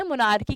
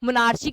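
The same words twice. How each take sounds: First: Said in the usual way. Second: मोनार्ची with च, as in "chair"; ch sound in मोनार्ची. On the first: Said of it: "कुछ लोग मोनार्ची भी कहते हैं". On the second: Shown as a demonstration. Teacher showing students the variant reading, मोनार्ची said with a ch sound. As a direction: say the middle of मोनार्ची as "ar-chee", not "ar-kee". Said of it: "यहाँ पर च की sound है".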